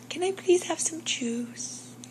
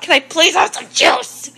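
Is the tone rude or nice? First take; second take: nice; rude. First: It is said in a nice, polite tone. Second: It is said in a rude, demanding tone.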